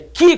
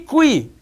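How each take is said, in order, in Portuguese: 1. A palavra é dita sem som de 'w'. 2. A palavra é dita com som de 'w'. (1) "como é que você escreve? K, I" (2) "K, U, I"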